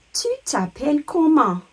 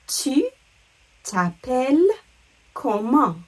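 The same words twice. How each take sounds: First: "Tu t'appelles comment" in one connected high phrase; high, joined-up "Tu t'appelles comment"; French model question. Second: "Tu", "t'appelles", "comment" with a pause after each; separated, careful "Tu t'appelles comment"; word by word. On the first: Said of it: "the question that means". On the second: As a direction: break up "Tu t'appelles comment" for learners. Teacher breaks question into words. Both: Shown as a demonstration.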